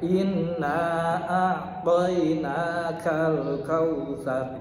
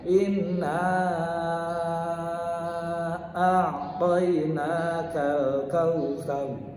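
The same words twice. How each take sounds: First: The long vowel is held for two beats. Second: The long vowel is held for six beats. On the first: "Bisa dibaca dua ketukan" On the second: "Bisa lagi enam, lebih panjang"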